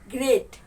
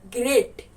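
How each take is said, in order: First: The tongue touches the ridge on the r. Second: The same.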